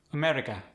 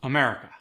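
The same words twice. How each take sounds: First: "America" with all syllables evenly weighted; level out the stress on "America"; Khmer-style "America", no syllable standing out. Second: "America" with MER punched louder; stress on MER. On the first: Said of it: "it's gonna be even". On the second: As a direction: lean hard on the second syllable of "America". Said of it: "stress tends to go on the mer". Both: Shown as a demonstration.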